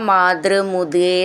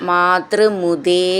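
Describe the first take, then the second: Both takes have the same delivery.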